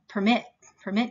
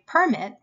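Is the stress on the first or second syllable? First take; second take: second; first. First: The stress is on the second syllable. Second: The stress is on the first syllable. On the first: It is a verb meaning to allow. "But permit me" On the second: It is a noun meaning an official permission. "But a permit"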